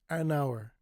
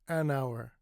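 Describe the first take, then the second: No difference in how they are said.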